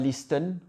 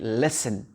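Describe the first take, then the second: First: The T sound is pronounced in the middle. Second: The T sound is left out entirely. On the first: The speaker calls it wrong. "on ne dit pas listen" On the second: The speaker calls it right. "on dit listen ... Le T n'est pas prononcé"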